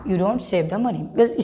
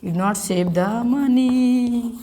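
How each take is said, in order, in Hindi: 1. Do not को एक शब्द 'don't' में संक्षिप्त कर दिया जाता है। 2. Do not को दो पूरे शब्दों के रूप में बोला जाता है।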